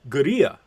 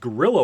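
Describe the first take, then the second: First: The word is said with a Spanish-style pronunciation. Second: The word is said like English gorilla. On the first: "I'm not going to pronounce this correctly" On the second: "native English speaking Americans tend to read this as"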